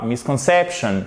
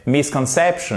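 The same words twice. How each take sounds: First: Misconception with MIS left weak, only CEP stressed; missing secondary stress. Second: Misconception with clear MIS and main CEP; secondary stress. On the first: Teacher showing the difference, no secondary stress. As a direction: skip the beat on MIS in "misconception". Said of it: "c'est pas misconception". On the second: Teacher showing the difference, secondary stress heard. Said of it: "c'est misconception". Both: Shown as a demonstration.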